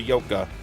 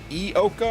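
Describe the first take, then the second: First: The name begins with a 'y' consonant sound. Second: The name begins with an 'ee' vowel sound.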